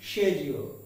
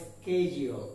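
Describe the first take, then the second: First: The word begins with a 'she' sound. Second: The word begins with a 'ske' sound. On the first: "এর উচ্চারণটা হবে শেডিউল" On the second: "নয়তো স্কেডিউল"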